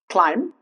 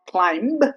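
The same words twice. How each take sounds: First: No b sound is heard at the end. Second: A b sound is heard at the end. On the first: The speaker calls it right. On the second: The speaker calls it wrong.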